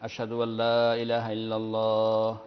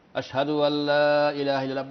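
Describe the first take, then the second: First: It is said quietly. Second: It is said loudly.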